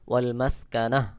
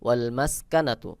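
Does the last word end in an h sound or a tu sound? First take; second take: h sound; tu sound. First: The word ends with a soft h sound. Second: The word ends with a full tu syllable. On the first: The reading stops at this word. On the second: The reading continues without stopping.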